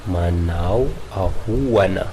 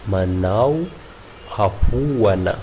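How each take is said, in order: The two takes are said the same way.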